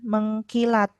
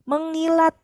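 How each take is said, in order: First: A k sound follows the ng sound. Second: No k sound follows the ng sound. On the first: The speaker calls it wrong. "bukan mengkilat" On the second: The speaker calls it right. "Kaknya harus luluh"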